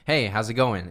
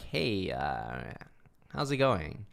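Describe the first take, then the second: First: It is said in a natural, confident way. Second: It is said hesitantly, with an uncertain tone. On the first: The speaker builds a natural connection. The speaker calls it right. "it's very natural" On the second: The listener will not trust the speaker to buy. The speaker calls it wrong. "if I talk a little more uncertain"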